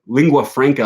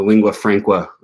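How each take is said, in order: First: Said in the usual way. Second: "franca" slipped into "frank-wa"; slip of the tongue. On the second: Real, not acted. Vlogger fumbling the term for world language, "franca" mispronounced as "frank-wa". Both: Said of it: "did I say franca?".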